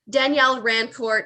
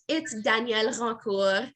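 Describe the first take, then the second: First: The surname is said the American way. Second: The surname is said the French way.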